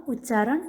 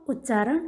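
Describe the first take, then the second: Both takes have the same delivery.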